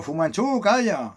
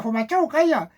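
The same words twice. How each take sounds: First: Lightly voiced owner, a bit higher, telling the dog to hush; a hint of a fed-up owner shushing his dog. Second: A hint of a squawky parrot, higher. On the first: Owner scolding his barking dog, mildly voiced. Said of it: "Y el dueño". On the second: Parrot repeating the owner's order to the dog, lightly mimicked. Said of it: "el loro lo decía".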